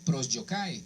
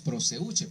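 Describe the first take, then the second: First: It is pronounced with a Greek sound, like prosyokai. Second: It is pronounced with a Spanish sound, like proseuche. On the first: "Se lee prosyokai" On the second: "como hablamos en español decimos proseuche"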